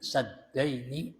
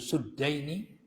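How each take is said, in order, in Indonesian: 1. Vokal pertama adalah bunyi a terbuka. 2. Vokal pertama adalah bunyi u yang membulat. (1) "bifatis sini" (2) "wa dhammiha, ya, yaitu suddaini"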